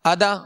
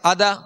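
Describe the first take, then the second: No difference in how they are said.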